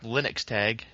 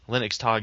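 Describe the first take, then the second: First: Tag is said the English way. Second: Tag is said the German way. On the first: The speaker calls it wrong. "I'm pronouncing it incorrectly" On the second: The speaker calls it right. "but it's in German, so Linux Tag is the correct pronunciation"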